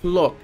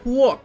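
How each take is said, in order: First: The name is said with an L sound. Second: The name is said with a W sound. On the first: The speaker calls it wrong. "it's not Plok" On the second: The speaker calls it right. "like a W"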